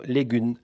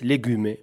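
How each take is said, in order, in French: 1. Le mot se termine sur le son m. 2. Le mot se termine par une voyelle après le m. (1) "L-E-G-U-M se prononce" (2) "amb une E de soutien, se dit"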